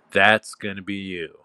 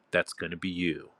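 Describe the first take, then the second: First: "That's" punched loud, then falling; stress on That's. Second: Said in the usual way. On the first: Real, not acted. Dominant speaker insisting to his sub, "That's" stressed loudly. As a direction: hit "That's" hard to drive it home. Repeats the line for emphasis.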